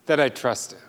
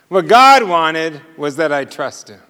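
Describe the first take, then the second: First: Much softer and lower, dropping the voice on that I trust him; hushed repeat. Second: Said in the usual way. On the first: Shown as a demonstration. Preacher repeating his point softly to the congregation, hushed. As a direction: let the repeat fall to a near hush.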